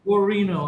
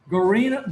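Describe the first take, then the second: First: GUARINO as a settled statement, falling at the end; copied pronunciation. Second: GUARINO with a questioning rise; tentative name check. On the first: Shown as a demonstration. Host copying the guest's surname, assured falling tone. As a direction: repeat "Guarino" as just taught, pitch dropping. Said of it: "I have to say it like that". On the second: Real, not acted. Host checking the guest's surname, tentative rising question. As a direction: try out "Guarino" as an unsure question. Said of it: "ask exactly how to say it".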